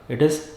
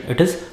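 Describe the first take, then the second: No difference in how they are said.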